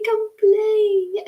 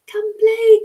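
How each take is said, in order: First: Fairy voice calling. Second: Very high, loud sing-song fairy call. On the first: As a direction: coax again in a tiny high voice. Fairies calling child to play. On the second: Fairies calling the little girl to come play, high sing-song. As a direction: lure the child over in a tiny fairy voice. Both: Retold or imitated.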